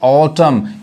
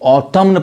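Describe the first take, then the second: First: It ends on the M sound. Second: An N sound is said at the end. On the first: The speaker calls it right. "एन नहीं पढ़ाता है, silent होता है" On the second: The speaker calls it wrong. "गलत mispronounce कर देते हैं"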